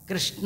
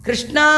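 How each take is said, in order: First: The final vowel is short. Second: The final vowel is long. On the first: It names the god Narayana. "ಹೇಳದೇ ಇದ್ದರೆ ನಾರಾಯಣ. ಕೃಷ್ಣ ಅಂದರೆ ನಾರಾಯಣ" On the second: It names Draupadi. "ದೀರ್ಘ ಹೇಳಿದ್ರೆ ದ್ರೌಪದಿ"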